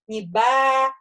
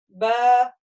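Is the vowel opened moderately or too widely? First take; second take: widely; moderately. First: The vowel is said with the mouth opened widely. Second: The vowel is said with the mouth opened moderately. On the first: The speaker calls it wrong. "не ба и не б" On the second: The speaker calls it right. "ба, умеренно"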